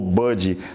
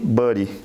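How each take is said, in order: First: It is said with a British English accent. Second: It is said with an American English accent.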